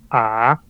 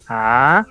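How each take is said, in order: First: The pitch is very low. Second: The pitch rises. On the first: "el tercero es A, es más grave" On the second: "el segundo es ascendente"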